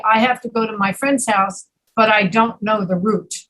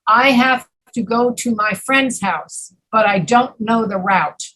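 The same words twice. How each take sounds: First: Final "route" rhyming with "boot"; route as root. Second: Final "route" rhyming with "out"; route as rout. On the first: Teacher gives the other example, "route" sounded like "root". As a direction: say "route" with a long OO vowel. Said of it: "Or you can say". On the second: Teacher gives an example sentence, "route" rhyming with "out". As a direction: say "route" with an OW vowel, sentence measured. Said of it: "So you might say, for example". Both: Shown as a demonstration.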